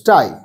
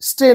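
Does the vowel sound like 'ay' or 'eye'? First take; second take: eye; ay. First: The vowel sounds like 'eye'. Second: The vowel sounds like 'ay'. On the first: The speaker calls it right. "কিন্তু স্টাই" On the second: The speaker calls it wrong. "স্টে না"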